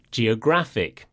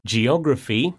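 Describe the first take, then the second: First: Geographic stressed ge-o-GRAPH-ic, falling. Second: Geography stressed ge-OG-ra-phy, rising. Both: Shown as a demonstration. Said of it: "the stress falls on the penultimate syllable".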